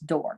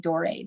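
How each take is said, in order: First: The final vowel of the name is silent. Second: The final vowel of the name is sounded. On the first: The speaker calls it right. "You don't pronounce that la E at the end" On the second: The speaker calls it wrong. "I always say Doré"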